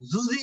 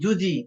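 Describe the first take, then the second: First: The consonant sounds like a buzzing z. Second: The consonant sounds like a clear j. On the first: The speaker calls it wrong. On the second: The speaker calls it right.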